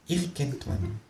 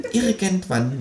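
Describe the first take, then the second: First: Much softer, near-whispered; murmured. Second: Softer, high muttering; murmured. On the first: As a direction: let it fade into a mutter. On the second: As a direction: mutter it under the breath. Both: A narrator's reading. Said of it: "murmelt das Känguru".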